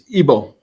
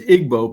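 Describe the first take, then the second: First: The G sound is nearly silent. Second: The G sound is clearly pronounced. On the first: The speaker calls it right. "the G is sort of silent, so it's Igbo" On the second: The speaker calls it wrong. "the name you pronounce as Igbo because that's how it looks"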